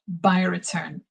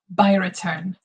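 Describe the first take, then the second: The two takes are said the same way.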